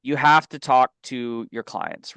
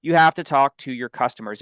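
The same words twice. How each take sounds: First: "have" leaned on, slow and deliberate; stress on have. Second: "have" hit hard with a falling close; stress on have. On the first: Coaching agents to call clients, stress on "have". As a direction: press the word "have" as the key point. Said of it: "So my point in that is". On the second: Repeating the lesson to agents, stress on "have". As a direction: punch "have" like a rule. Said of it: "that is also not true". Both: Real, not acted.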